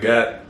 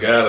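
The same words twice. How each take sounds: First: The word ends with a t sound. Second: The word ends with a d sound. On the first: "I say God. Because if you think about it, it makes more sense anyway. I got damned" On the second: "I don't say God"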